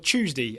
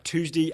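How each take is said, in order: First: It is said in an English accent. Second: It is said in an American accent. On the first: "or English pronunciation" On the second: "whether I'm going American"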